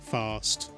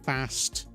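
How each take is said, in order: First: It has a long, soft southern A. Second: It has a short, hard northern A.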